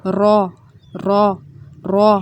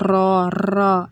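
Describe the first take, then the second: First: را with one clean tap, no rolling; a crisp untrilled را; single-tap ra. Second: را rolled with repeated tongue taps; the rattling را to avoid; wrong trilled ra. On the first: Teacher showing the correct single-tap را. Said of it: "ایسے تکرار نہیں ہونی چاہیے". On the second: Teacher showing students the wrong rolled را. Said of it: "اس کو ایسے نہیں پڑھنا آپ نے". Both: Shown as a demonstration.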